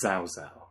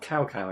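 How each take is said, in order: First: The name is said with a Chinese-style sound. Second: The name is said like English 'cow cow'. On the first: This is the newer way the games said it. "they suddenly turn it into the Chinese equivalent" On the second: This is the older way the games said it. "they went from the words like cow cow"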